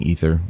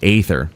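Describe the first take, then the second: First: The word starts with an 'ee' vowel sound. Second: The word starts with an 'ay' vowel sound. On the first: The speaker calls it wrong. "I keep saying ether. I'm, I'm sorry" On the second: The speaker calls it right. "A E is usually A, so aether"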